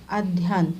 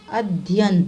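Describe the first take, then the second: First: अध्ययन said as addhyan with heavy dh; doubled dh. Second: Said in the usual way. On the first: Shown as a demonstration. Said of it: "दो बार धा न". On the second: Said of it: "यह है सही उच्चारण".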